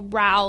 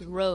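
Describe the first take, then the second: First: The vowel sounds like the one in cow. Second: The vowel sounds like the one in go. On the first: It names a quarrel. The speaker calls it wrong. "It's not like a row, like an argument" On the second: It names moving a boat with oars. The speaker calls it right. "It's row, like row a boat"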